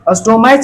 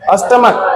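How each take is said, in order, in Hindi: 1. इस शब्द का अंत ch की आवाज़ से होता है। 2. इस शब्द का अंत k की आवाज़ से होता है। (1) "अस्टोमैच नहीं पढ़ते।" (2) "अष्टमक पढ़ते।"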